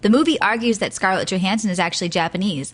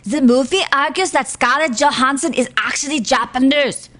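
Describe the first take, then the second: First: It is read in the speaker's ordinary accent. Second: It is read in a put-on German accent.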